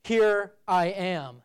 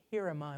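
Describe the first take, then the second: First: "Here I am" slow and loud, weight on "I am"; wrong word order. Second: Said in the usual way. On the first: Shown as a demonstration. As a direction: lean on "I am" slowly and loudly, as the wrong version. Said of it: "Isaiah did not say". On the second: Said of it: "the emphasis of that sentence".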